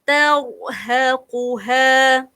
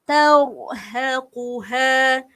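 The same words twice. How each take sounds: Both takes have the same delivery.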